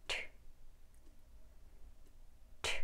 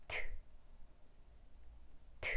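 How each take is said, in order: First: 트 as a sharp airy alveolar t; bare t burst for 트, with air rushing out; tongue on the ridge. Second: 트 without tongue tip on the gum ridge; Korean-style 트, less of a sharp airy burst. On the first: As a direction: release 트 from the tongue tip on the gum ridge. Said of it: "혀 끝을 대서 트 소리를 내볼게요". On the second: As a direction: say 트 duller, tongue not touching the ridge. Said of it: "혀 끝을 대지 않으면". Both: Shown as a demonstration.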